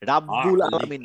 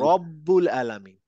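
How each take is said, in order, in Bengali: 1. প্রথম স্বরধ্বনিটি একটি খোলা 'a' ধ্বনি। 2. প্রথম স্বরধ্বনিটি একটি গোলাকার 'o' ধ্বনি।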